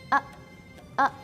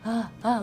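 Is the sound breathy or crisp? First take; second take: crisp; breathy. First: The sound starts crisply with the breath held. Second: The sound starts with air escaping, breathy. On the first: The speaker calls it right. "nafas yang ditahan" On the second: The speaker calls it wrong. "nggak boleh ha ha"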